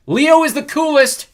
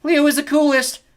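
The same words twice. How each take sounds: First: High, drawn-out boastful yell; boastful shout. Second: High, loud parroted yell; echoing shout. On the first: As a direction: shout it slowly to a whole crowd. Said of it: "he shouted". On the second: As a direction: shout it back like an echo. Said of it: "Echo shouted back". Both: A narrator's reading.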